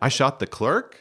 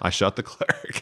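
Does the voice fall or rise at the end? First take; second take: rise; fall. First: The voice rises slightly at the end. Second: The voice falls at the end. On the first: The speaker is asking in disbelief. "there's this tiny little question mark at the end" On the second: The speaker is confessing. "he's just hearing it as a period at the end of that sentence"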